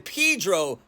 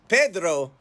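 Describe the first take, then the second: First: It is said with an English pronunciation. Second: It is said with a Spanish pronunciation. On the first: "turned into" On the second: "the Spanish language Pedro"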